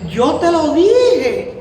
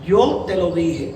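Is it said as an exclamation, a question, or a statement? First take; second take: exclamation; statement. First: It is said as an exclamation. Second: It is said as a plain statement.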